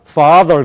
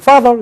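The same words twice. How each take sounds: First: It is said with an American English accent. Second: It is said with a Korean-style accent. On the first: The speaker calls it right. "미국 사람들은 father" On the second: The speaker calls it wrong. "우리는 father 그런 거예요"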